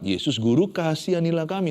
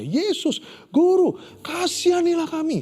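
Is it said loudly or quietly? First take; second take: quietly; loudly. First: It is said at a normal, quiet volume. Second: It is shouted loudly.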